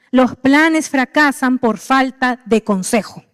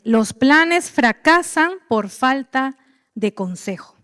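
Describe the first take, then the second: First: Slow, deliberate quoting; slow emphatic. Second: Each word laid out slowly; slow scripture reading. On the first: Preacher repeating the verse slowly. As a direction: let each word land slowly. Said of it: "Eso dice la palabra". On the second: Preacher reading the verse slowly to the church. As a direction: read the verse slowly and deliberately. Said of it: "Proverbios quince veintidós". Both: Shown as a demonstration.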